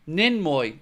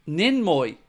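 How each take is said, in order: No difference in how they are said.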